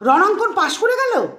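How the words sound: It sounds surprised with little happiness. The passing was unexpected but not especially welcome. "এখানে কিন্তু এতটা আনন্দ নেই, কিন্তু এখানেও অবাক।"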